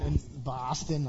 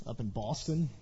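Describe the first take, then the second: First: A slow, hammed-up try at a Boston accent; mock Boston accent from a Tennessee boy; Boston accent attempt. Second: Said in the usual way. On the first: Shown as a demonstration. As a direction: drawl Boston the way a Bostonian would, half-joking. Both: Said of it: "can fake that accent".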